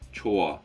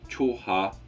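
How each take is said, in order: First: The h sound in the middle is silent. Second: The h sound in the middle is pronounced. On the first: The speaker calls it right. "its example is good, which is choa" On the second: The speaker calls it wrong. "not choha"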